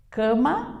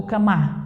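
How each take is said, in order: First: "Cama" with ca strong, ma light; correct first-syllable stress. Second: "camá" accented on the last syllable; shifted final stress. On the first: Teacher offers the right option, stressing ca in "Cama". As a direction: lean on the ca of "Cama". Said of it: "cã é mais forte". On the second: Teacher tests the wrong option, stressing ma in "camá". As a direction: hit the end of "camá". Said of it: "tente deslocar a sílaba tônica". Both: Shown as a demonstration.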